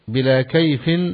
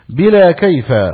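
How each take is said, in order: First: The word kayf ends with 'in'. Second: The word kayf ends with a short 'a'. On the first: The word is in the genitive case. "مجرور" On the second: The word is in the accusative case, as a quotation. "وهنا هو منصوب على الحكاية"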